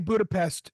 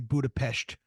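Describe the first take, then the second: First: The word ends with an 's' sound. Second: The word ends with an 'sh' sound. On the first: The speaker calls it right. "Just say Budapest" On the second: The speaker calls it wrong. "I hate it when people say Budapest"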